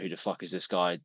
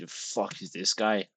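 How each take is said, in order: First: It is said in his normal voice. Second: It is said in a put-on accent.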